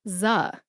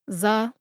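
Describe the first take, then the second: First: The vowel is an 'uh' sound. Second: The vowel is an 'uh' sound.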